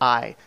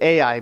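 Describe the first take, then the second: First: The name is said as one syllable, like eye. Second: The name is said with two syllables. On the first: This is how it was said in a video. The speaker calls it right. "they pronounce it I" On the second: This is how the speaker used to say it. The speaker calls it wrong. "I always pronounced it Ai"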